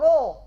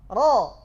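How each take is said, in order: First: The vowel is rounded toward u. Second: The vowel is open and heavy. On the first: The speaker calls it wrong. "bercampur suaranya dengan waw" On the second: The speaker calls it right. "Tebal, bukan dhammah"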